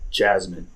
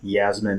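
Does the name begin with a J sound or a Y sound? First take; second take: J sound; Y sound. First: The name begins with a J sound. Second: The name begins with a Y sound. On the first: The speaker calls it right. "That's the correct way" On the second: The speaker calls it wrong. "my pronunciation I say Yasmin and it's not like that"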